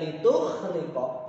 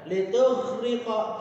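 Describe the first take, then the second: First: The consonant is a voiceless kh sound. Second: The consonant is a voiced gh sound. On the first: The speaker calls it wrong. "karena itu menggunakan kho" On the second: The speaker calls it right. "Cara bacanya litughriqa"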